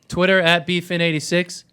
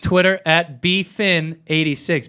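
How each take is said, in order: First: The phrase is said quickly. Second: The phrase is said slowly.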